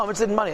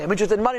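First: "money" said flat with a falling close; plain statement. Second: "money" lifted into a doubtful question; questioning rise. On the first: Teacher states the answer plainly to students. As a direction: state "I'm interested in money" as a settled fact. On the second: Teacher questions the answer back to his students. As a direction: end on "money" rising, as if doubting it. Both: Shown as a demonstration. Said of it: "teacher testing the answer".

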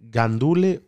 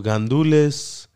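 First: GANDULE ending on an open vowel, no S; questioning gandule, S left off; dropped final S. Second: GANDULES drawn out slowly, S sounded at the end; questioning gandules, ending on a clear S; final S pronounced. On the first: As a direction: say gandule without the S at the end. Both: Shown as a demonstration. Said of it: "don't pronounce the S".

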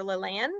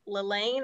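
First: "LaLanne" with its last syllable rhyming with "can"; short-A pronunciation. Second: "LaLanne" with its last syllable rhyming with "rain"; long-A pronunciation. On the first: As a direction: say "LaLanne" as luh-LAN. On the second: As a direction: say "LaLanne" as luh-LANE. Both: Shown as a demonstration. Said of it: "not sure if I'm saying his name correctly".

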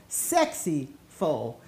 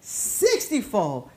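First: Low, slow, quiet and suggestive; suggestive pun. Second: Said in the usual way. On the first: Shown as a demonstration. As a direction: drop low and tease the pun. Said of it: "That's what I'm saying".

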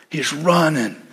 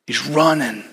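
The two takes are said the same way.

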